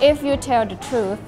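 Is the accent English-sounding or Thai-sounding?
English-sounding. It is said with an English-like accent. "เขาอาจจะไม่ชอบสำเนียงฝรั่งเรา"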